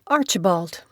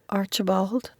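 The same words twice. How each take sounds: First: It is said loudly and firmly. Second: It is said quietly and timidly.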